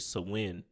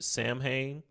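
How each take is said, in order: First: The name is pronounced as Gaelic speakers say it. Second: The name is pronounced as English speakers say it. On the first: The speaker calls it right. "it's actually Samhain in the Gaelic or the Irish" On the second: The speaker calls it wrong. "in the English we would pronounce it"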